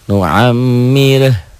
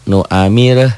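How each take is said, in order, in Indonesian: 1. Mim-nya ganda, ditahan, dan berdengung. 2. Mim-nya pendek, tanpa ditahan dan tanpa dengung. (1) "karena ada tasydid. Inilah gunnah" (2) "Coba tasydid ini hilangkan"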